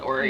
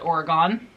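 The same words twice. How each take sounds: First: It is said with a local Oregonian pronunciation. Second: It is said with an East Coast pronunciation. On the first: This is how people from the state say it. "We call it Oregon" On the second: This is how people from the East Coast say it. "I know also East Coasters call it Oregon"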